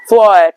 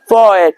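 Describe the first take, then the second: First: The tongue stays off the ridge for the t. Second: The same.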